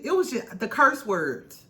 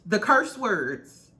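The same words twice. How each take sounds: First: Said in the usual way. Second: "curse words" dragged out slowly, each word leaned on; slow emphatic repeat. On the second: Shown as a demonstration. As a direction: repeat it slowly to hammer it home.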